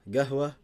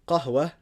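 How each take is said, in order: First: The word begins with a hard g sound. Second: The word begins with a deep q sound. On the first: This is the Saudi dialect form. "the qaf it changes to a g" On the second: This is the standard form. "qaf is a. It's like hamza. So you'll say like uh, qahwa would be ahwa"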